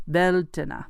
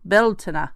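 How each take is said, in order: First: It is said with an attempted Irish pronunciation. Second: It is said with an attempted Irish pronunciation.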